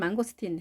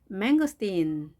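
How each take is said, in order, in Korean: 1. 모든 음절을 같은 높이로 말해요. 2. 음절마다 높낮이가 올라갔다 내려갔다 해요. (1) "우리말은 망고스틴 해서 높낮이가 그렇게 있지 않습니다" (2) "영어 발음은 망고스틴, 망고스틴 이렇게 높낮이가 있습니다"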